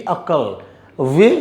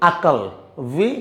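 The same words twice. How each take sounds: No difference in how they are said.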